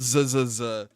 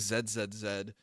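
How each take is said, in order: First: The letter is said the American way. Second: The letter is said the British way.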